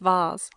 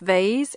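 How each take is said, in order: First: It is said with a British pronunciation. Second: It is said with a North American pronunciation. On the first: "in British English it's vase" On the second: "North American English is vase"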